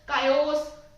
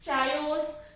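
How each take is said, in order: First: The word starts with a 'k' sound. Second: The word starts with a 'ch' sound.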